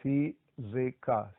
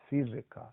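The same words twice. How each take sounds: First: Fizika said slowly, syllable by syllable: fi-zi-ka; slow Ukrainian word. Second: Said in the usual way. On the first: Shown as a demonstration. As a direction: spell out fizika slowly for learners. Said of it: "Next word is". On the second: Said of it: "Let's say it together".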